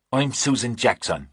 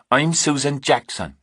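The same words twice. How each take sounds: First: Fake English accent. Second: "I'm Susan Jackson" pitched higher in an unconvincing put-on English accent; fake English accent, insisting. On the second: Kate insisting on her false name to Reacher, unconvincing put-on English accent. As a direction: push the fake accent harder the second time. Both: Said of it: "your accent isn't real convincing anyway".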